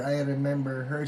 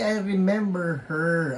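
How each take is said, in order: First: Said in the usual way. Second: Higher and louder, still thrilled; excited. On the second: Real, not acted. Host recognizing a viewer, excited gush. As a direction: gush it out happily.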